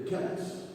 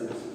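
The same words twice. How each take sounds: First: The word begins with a K sound. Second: The word begins with an S sound. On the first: "It's a C, but we pronounce it the K" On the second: "there are people who say Celts"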